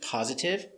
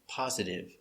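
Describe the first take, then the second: First: The middle consonant is a clear T sound. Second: The middle consonant is a soft D sound. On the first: "I can use the T" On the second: "or D"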